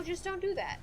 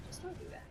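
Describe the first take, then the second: First: Said in the usual way. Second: Much softer, nearly whispered; quiet, whispery admonition; hushed warning. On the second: Real, not acted. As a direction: repeat it under your breath. Repeats the warning under breath.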